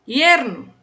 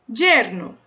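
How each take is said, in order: First: The word begins with a y sound. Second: The word begins with a dj sound. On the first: "Terceira, também falo essa, som de I" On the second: "A segunda é a que eu falo, som de D J"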